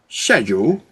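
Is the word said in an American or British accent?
British. The word is said with a British accent. "I want to use my English, my English English"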